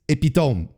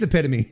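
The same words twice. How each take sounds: First: The word is pronounced the French way. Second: The word is pronounced the English way. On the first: The speaker calls it wrong. "in French, epitome is epitome. That's and, and that's how you pronounce it" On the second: The speaker calls it right. "no, it is epitome"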